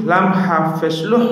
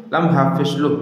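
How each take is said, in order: First: "হা" and final "লুহ" with a strong mid-throat h, pitched up. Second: "হা" and final "লুহ" with a light, plain h; lighter second ha. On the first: Teacher contrasts two Arabic letters, mid-throat "হা" and "লুহ". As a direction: push the h of "লুহ" from the middle of the throat. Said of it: "এটা হচ্ছে হলকের মধ্যখান থেকে". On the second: Teacher contrasts two Arabic letters, lighter "হা" and "লুহ". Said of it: "হা দু কিন্তু দুইটা পার্থক্য আছে". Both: Shown as a demonstration.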